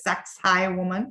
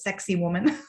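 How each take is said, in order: First: The name begins with a 'sacks'-like syllable. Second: The name sounds like the English words 'sexy woman'. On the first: This is the proper pronunciation of the name. The speaker calls it right. "but it's Saxai Woman" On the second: This is a common popular pronunciation of the name. The speaker calls it wrong. "otherwise pronounced as sexy woman. People say that"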